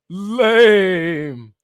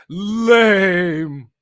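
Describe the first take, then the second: Both takes have the same delivery.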